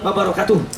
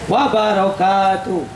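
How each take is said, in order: First: The syllable 'ka' has a short vowel. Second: The syllable 'ka' has a long vowel. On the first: The speaker calls it wrong. "Kanya panjang, jangan" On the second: The speaker calls it right. "Kanya panjang"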